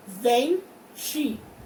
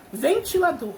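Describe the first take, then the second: First: "Ventilador" in four slow, separate beats; syllable by syllable. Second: Said in the usual way. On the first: Shown as a demonstration. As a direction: break "Ventilador" into ven, ti, la, dor with pauses. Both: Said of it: "Abri quatro vezes".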